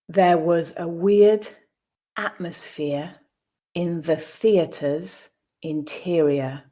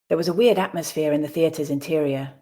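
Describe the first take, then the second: First: The sentence is read slowly. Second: The sentence is read at natural speed. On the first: "the first time slowly" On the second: "at a more natural pace"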